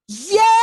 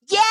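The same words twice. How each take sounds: First: The voice sounds relaxed, pulled rather than pushed. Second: The voice sounds pinched, strained and yelly.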